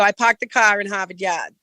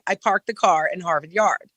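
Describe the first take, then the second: First: It is spoken in a Boston accent. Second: It is spoken in a non-Boston accent. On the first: "But the Bostonians go" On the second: "I would say personally"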